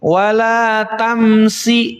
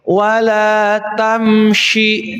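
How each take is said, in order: First: The middle consonant is a thin s sound. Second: The middle consonant is a spread sh sound. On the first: The speaker calls it wrong. "tidak bacanya tidak gini" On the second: The speaker calls it right. "bukan sa tapi sya"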